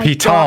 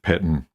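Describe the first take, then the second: First: It is said the French way, ending in 'tone'. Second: It is said the English way, ending in 'ten'. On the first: The speaker calls it right. "that is a French word" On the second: The speaker calls it wrong. "if you pronounce it Pitten. Most people do"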